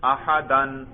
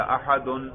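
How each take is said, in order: First: احدن said as "ahadan", ending on a clear "-an"; accusative ending. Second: احدن said as "ahadun", ending on a clear "-un"; nominative ending. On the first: Teacher shows students the accusative, احدن as "ahadan". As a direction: give احدن its "-an" case ending. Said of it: "نصب پڑھوں گا آپ کو سننے سے ہی پتا چل جائے گا". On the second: Teacher repeats the nominative for students, احدن as "ahadun". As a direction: give احدن its "-un" case ending. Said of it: "دیکھو میں رفع سننے سے ہی". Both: Shown as a demonstration.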